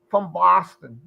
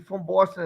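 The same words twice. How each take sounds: First: "Boston" in a broad Boston accent. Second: Said in the usual way. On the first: Shown as a demonstration. Host mimicking locals for friends, Boston accent. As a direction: open up the vowel, Boston-style. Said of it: "if you're from Boston, it's like".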